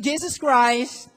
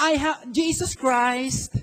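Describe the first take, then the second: First: Each syllable of Jesus Christ stretched; slow declaration. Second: Drawn-out Jesus Christ for the crowd to repeat; slow declaration. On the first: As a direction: lead the crowd in saying it slowly. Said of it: "tell it to me". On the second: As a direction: model the words slowly, for repeating. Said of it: "Sabihin mo nga". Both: Shown as a demonstration.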